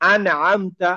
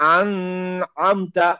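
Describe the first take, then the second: First: The n is pronounced clearly without nasal hum. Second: The n is held with a nasal hum. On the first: The speaker calls it right. "তখন আন আমতা" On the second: The speaker calls it wrong. "আমি যদি বলি আন আমতা, ভুল হয়ে গেল"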